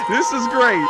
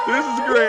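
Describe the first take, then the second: First: Higher and louder, laughing through it; gleeful, still laughing; delighted. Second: Higher and louder, still laughing; gleeful repeat; delighted. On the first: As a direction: savour the moment out loud. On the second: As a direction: say it again, loving it. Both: Real, not acted. Delighted by the replay.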